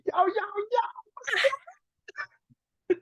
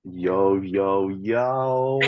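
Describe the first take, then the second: First: It is said with much more energy. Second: It is said with ordinary, lower energy.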